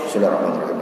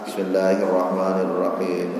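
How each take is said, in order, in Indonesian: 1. Dibacanya sangat cepat, terburu-buru. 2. Dibaca dengan tempo yang pas, tidak terburu-buru. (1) "sing buru-buru" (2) "Haknya huruf dipenuhi"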